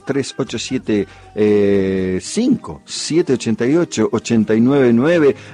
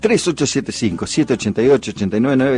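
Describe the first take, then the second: First: The number is said more slowly. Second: The number is said quickly.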